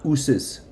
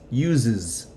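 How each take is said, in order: First: The middle consonant is a hissing s sound. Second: The middle consonant is a buzzing z sound. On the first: The speaker calls it wrong. "It's not uses" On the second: The speaker calls it right. "So the S's are going to sound like Z's"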